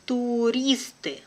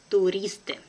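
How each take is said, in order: First: Slow and careful, drawn out for learners; teacher's careful slow reading. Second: Brisk, natural native speed; quick native pace. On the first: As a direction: spell it out slowly for the class. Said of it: "one first time will be slow". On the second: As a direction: say it fast like a native. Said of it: "second time will be quickly, like a native". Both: Shown as a demonstration.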